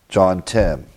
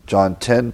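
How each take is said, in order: First: Whispered aside. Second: Said in the usual way. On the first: Real, not acted. Muttering the reference to himself.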